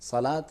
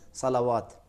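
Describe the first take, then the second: First: It is said without a 'w' sound inside. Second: It is said with a 'w' sound inside. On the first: The speaker calls it right. "जैसे सलात है" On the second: The speaker calls it wrong. "बहुत से लोग यही कहते हैं"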